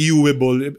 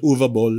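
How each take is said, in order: First: The name is said with English-style sounds. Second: The name is said with German sounds. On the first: "Iba-iba yung pronunciation" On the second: "pero yung German pronunciation"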